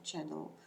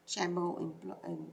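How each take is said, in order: First: The word is said carefully, ending cleanly. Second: The word is rushed, with an extra slurred ending. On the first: The speaker calls it right. "instead of channel" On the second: The speaker calls it wrong. "I speak very fast, and then it comes out like that"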